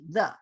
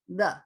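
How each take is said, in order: First: The vowel is a quick, reduced schwa. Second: The same.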